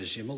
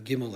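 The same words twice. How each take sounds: First: It begins with a soft fricative sound. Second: It begins with a hard stop sound. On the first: "like the Yemenites" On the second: "a harsh pronunciation"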